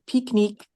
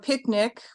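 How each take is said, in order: First: It is said with a French pronunciation. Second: It is said with an English pronunciation.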